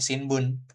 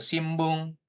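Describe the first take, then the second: First: An n sound comes before the b. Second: An m sound comes before the b. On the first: This matches how it is written. "Aslinya sih sebenarnya Shinbun aja, kayak gini nih" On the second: This is how it is actually read. "Itu dia dibacanya M. Kayak gitu"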